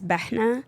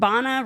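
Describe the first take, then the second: First: A breathy h sound comes before the n. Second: No h sound comes before the n. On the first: This is the original Arabic pronunciation. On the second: This is the simplified everyday pronunciation. "rhymes with Ghana"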